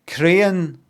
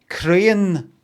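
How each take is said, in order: The two takes are said the same way.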